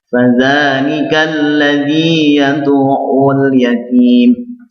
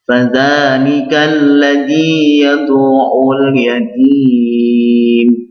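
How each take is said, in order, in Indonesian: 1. Vokal akhir dibaca dua ketukan. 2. Vokal akhir dibaca empat ketukan. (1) "Saya contohkan dua ketukan" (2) "ayat selanjutnya empat ketukan"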